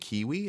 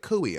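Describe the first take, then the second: First: The word is said like 'kiwi'. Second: The word is said like 'cooey'. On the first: The usual pronunciation. The speaker calls it right. "you mean kiwi?" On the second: Someone else's mistaken pronunciation. The speaker calls it wrong. "she can't spell or pronounce kiwi"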